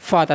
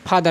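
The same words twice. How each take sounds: First: It begins with a soft f sound. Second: It begins with an aspirated ph sound. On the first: The speaker calls it right. "फादर ना कि" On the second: The speaker calls it wrong. "ना कि फादर"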